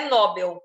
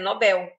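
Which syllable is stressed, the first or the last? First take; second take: first; last. First: The stress is on the first syllable. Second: The stress is on the last syllable. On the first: The speaker calls it wrong. "não é Nobel" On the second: The speaker calls it right. "é Nobel. Não está acentuada"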